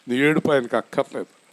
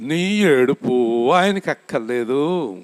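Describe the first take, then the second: First: Said in the usual way. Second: Slow, stress on ఆయనకి; slow, weighty quote. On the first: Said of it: "RRK గారు అంటారు". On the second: Retold or imitated. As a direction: let each word of నీ ఏడుపు ఆయనకి అక్కర్లేదు land slowly. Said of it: "నాకన్నా బాగా చెప్తాడు ఆయన".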